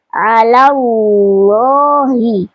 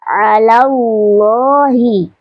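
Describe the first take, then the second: First: The L in Allah is thick and heavy. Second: The same.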